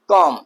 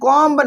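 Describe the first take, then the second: First: The final b sound is silent. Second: The final b sound is pronounced. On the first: The speaker calls it right. "Silent होगा" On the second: The speaker calls it wrong. "कॉम्ब नहीं पढ़ेंगे"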